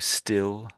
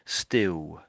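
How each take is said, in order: First: The final L is a clear L sound. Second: The final L sounds like a W.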